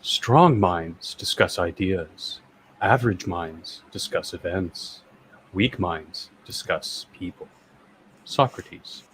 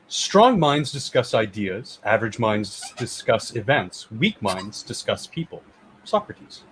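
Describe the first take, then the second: First: It is said in a soft narrator voice. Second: It is said in a normal speaking voice.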